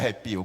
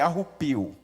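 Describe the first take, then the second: First: The second vowel sounds like e. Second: The second vowel sounds like u. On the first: "Eu sei que é arrepio" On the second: "mas eu falo arrupio para ficar engraçado"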